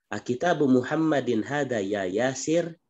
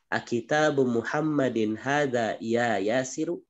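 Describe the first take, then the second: First: The final vowel of the last word is dropped. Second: The final vowel of the last word is pronounced. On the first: This is how it is said in conversation. "kalau ya Yasir itu sudah bahasa-bahasa muhadasah. Sudah apa diwakafkan" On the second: This is how it is read in study. "ini kita membaca gitu"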